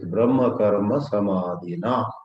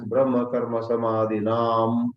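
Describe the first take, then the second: First: The last word ends in a plain vowel. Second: The last word ends with an added m sound. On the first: The speaker calls it right. "there is neither Visarga nor Anuswara" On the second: The speaker calls it wrong. "mispronounced either as Brahma Karma Samadhinam"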